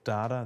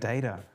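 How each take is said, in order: First: It is said with the Australian pronunciation. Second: It is said with a non-Australian pronunciation. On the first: "Australian, we say data" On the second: "I started saying data"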